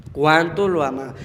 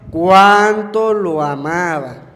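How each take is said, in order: First: Said in the usual way. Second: Drawn out slowly and louder; slow emphatic echo. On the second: Shown as a demonstration. Preacher repeats the people's words, slow and stressed. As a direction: lean on each word slowly. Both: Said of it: "la gente comentaba".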